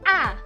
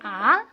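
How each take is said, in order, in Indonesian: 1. Nadanya jatuh tajam dan mendadak. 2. Nadanya naik dari rendah ke tinggi. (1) "nada keempat itu bacanya turun menyentak" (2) "Nada kedua bacanya naik"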